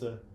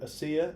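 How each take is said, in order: First: The name sounds like Asa, with no zh. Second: The name sounds like the word Asia. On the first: The speaker calls it right. "I've told you a million times it's Asa" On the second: The speaker calls it wrong. "they would be like"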